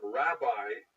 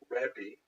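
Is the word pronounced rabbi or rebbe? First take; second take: rabbi; rebbe. First: It is pronounced as rabbi. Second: It is pronounced as rebbe. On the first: This form is not a real word in that language. The speaker calls it wrong. "that pronunciation is actually kind of nonsensical in Hebrew" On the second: This is how the title was really said. The speaker calls it right. "that's the actual pronunciation"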